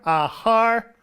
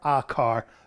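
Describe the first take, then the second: First: The noun begins with an h sound. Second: The noun begins with a hard c sound. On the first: The car belongs to a man. "his car" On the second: The car belongs to a woman. "her car"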